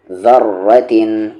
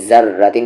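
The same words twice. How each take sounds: First: Slow ज़र्रतिन, ज़ as th in this; tongue on front teeth for ज़ in ज़र्रतिन; correct zaal sound. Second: Quick ज़र्रतिन with buzzing plain z; wrong z sound. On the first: Teacher modelling the letter, voiced th opening ज़र्रतिन. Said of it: "ऐसे नहीं, ज़र्रतिन नहीं". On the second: Teacher showing what not to say, plain z in ज़र्रतिन. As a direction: start ज़र्रतिन on z instead of voiced th. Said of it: "ऐसे नहीं". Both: Shown as a demonstration.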